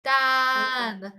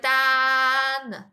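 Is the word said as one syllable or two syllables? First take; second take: one syllable; one syllable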